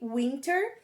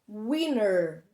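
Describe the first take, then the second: First: The t sound is clearly pronounced. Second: The t sound is dropped after the n. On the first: "como se escreve" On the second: "o mais comum é eles pronunciarem com o som de winner"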